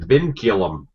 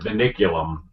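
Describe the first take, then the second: First: The word is said with three syllables. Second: The word is said with four syllables. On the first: The speaker calls it right. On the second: The speaker calls it wrong.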